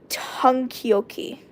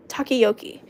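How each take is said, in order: First: "takoyaki" said very slowly and unsure, like "tahn-kee-oh-kee"; unsure pronunciation. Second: "Takoyaki" said as "tah-kee-oh-kee" with a falling close; corrected pronunciation. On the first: Reader unsure of the dish name, saying "takoyaki" slowly as "tahn-kee-oh-kee". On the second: Reader correcting the dish name to "Takoyaki", said as "tah-kee-oh-kee". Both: Shown as a demonstration. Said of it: "I don't even know how to say this".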